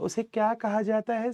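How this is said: It is read in a put-on girlish voice. A girl is reading the question. "पर जब लड़की बोलती है तो कैसे बोलती है?"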